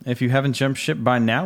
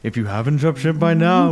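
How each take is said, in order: First: It is said in a normal speaking voice. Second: It is said in a spooky put-on voice.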